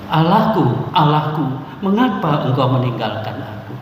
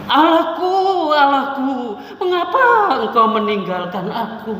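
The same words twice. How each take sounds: First: It is read in an ordinary, normal tone. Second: It is cried out in a high, piercing voice. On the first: "dengan nada yang biasa, lagu yang biasa" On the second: "dia melengking tinggi, seruan"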